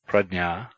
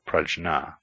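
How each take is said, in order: First: The middle cluster sounds like dny. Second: The middle cluster sounds like jn. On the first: The speaker calls it right. "is pronounced as nny, dny, or gy" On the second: The speaker calls it wrong. "never as prajna"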